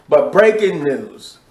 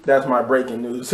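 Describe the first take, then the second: First: Slow dramatic breaking news; announcer voice. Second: Said in the usual way. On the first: Shown as a demonstration. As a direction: announce it like a newscaster. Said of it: "voice, a little beat".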